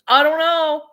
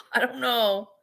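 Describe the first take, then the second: First: Loud, higher exasperated shrug; mock outrage. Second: Said in the usual way. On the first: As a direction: throw it out in frustration. Exasperated at prices.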